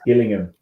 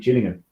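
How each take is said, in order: First: The name is pronounced as in Dorset. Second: The name is pronounced as in Kent. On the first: The speaker calls it right. "it's Gillingham in Dorset" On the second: The speaker calls it wrong. "It's not actually Gillingham"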